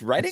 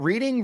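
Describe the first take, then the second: First: The first vowel sounds like the word 'red'. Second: The first vowel sounds like the word 'reed'. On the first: The speaker calls it right. "It's Reading" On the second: The speaker calls it wrong. "It's not Reading Railroad"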